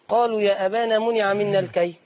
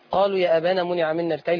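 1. يوجد وقف بعد كلمة أبانا. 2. الجملة تستمر بدون وقف. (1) "أما تقولي قالوا يا أبانا وتقفي منع منا الكيل" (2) "أوصلي"

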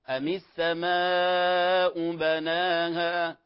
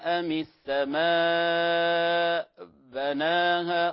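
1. تتصل الكلمات ببعضها بلا وقف. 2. يوجد قطع خفيف ولهاث بعد 'as-samaa'. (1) "إما أن توصلها مع بعضها" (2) "هذا وقف وليس سكت، فلا نقول ... خطأ"

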